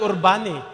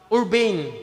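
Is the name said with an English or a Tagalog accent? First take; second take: Tagalog; English. First: The name is said with a Tagalog accent. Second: The name is said with an English accent. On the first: "Sa Tagalog" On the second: "The right pronunciation sa English"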